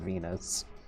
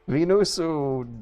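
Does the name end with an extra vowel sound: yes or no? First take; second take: no; yes. First: The name ends on a plain consonant. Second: The name ends with an added final vowel. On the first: This is the ordinary English name. "just plain old Venus" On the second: This is how it is said in Japanese. "it would be Venusu"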